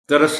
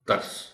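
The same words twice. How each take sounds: First: A vowel is inserted after the middle consonant. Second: The middle consonant has no vowel after it. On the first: The speaker calls it wrong. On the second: The speaker calls it right.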